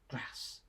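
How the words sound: The vowel is short, as in at.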